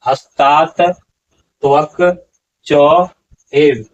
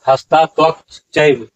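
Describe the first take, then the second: First: Each word is said separately and in full. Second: The words are run together, dropping sounds. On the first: The speaker calls it right. "यहाँ पर उच्चारण होगा" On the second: The speaker calls it wrong. "यहाँ आप उच्चारण करते हैं"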